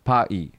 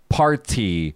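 First: The T sound in the middle is dropped. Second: The T sound in the middle is clearly pronounced. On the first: "in his local British accent, he says pa-e" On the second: "We say party"

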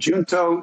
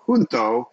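First: The word begins with a J sound. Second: The word begins without a J sound.

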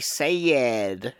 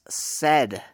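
First: The word has a French-accented pronunciation. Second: The word has a standard English pronunciation. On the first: The speaker calls it wrong. "she just couldn't pronounce the word said in proper English" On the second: The speaker calls it right. "that's not how you say it. It's said"

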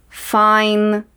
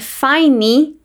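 First: The word ends cleanly on the n sound. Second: The word ends with an extra vowel after n. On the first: The speaker calls it right. "E sim" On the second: The speaker calls it wrong. "eu não falo I'm fine"

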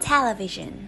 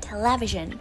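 First: The stress is on the first syllable. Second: The stress is on the second syllable. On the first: The speaker calls it right. "trọng âm sẽ được nhấn vào âm tiết đầu tiên" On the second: The speaker calls it wrong. "rất nhiều người thường phát âm từ này với trọng âm rơi vào âm tiết thứ hai"

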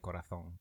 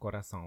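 First: The z is said with a lisped th sound. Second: The z is said as a plain s sound. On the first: "I hate the Spanish lisp" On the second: "instead of corazón"

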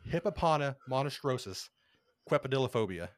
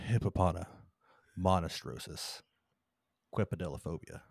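First: The word is said at a quick pace. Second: The word is said slowly and softly.

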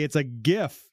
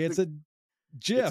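First: GIF begins with a hard G sound. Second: GIF begins with a soft G sound. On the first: This is the speaker's own way of saying it. "I say it's a GIF. ... It's a hard G" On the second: This is how someone else might say it. "You might say it's a GIF"

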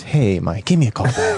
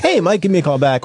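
First: The voice sounds heavy and somber. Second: The voice sounds bright and upbeat. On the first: The news is bad. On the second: The news is good.

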